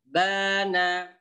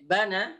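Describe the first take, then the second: First: The first vowel is drawn out long. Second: The first vowel is short and quick. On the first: "Yang kedua, bana, baknya dibaca panjang" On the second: "yang pertama pendek, bana, pendek cepat"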